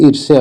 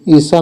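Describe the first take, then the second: First: ईर्ष्या as "ir-sya", R and Y sounded; correct pronunciation. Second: ईर्षा as "isa", without the Y glide; wrong pronunciation. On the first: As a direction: sound both R and glide in ईर्ष्या. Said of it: "ईर्ष्या होता है". (ईर्ष्या में 'र' और 'य' दोनों बोलें) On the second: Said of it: "ईर्षा नहीं होता है". (ईर्षा को 'य' के बिना बोलें) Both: Shown as a demonstration.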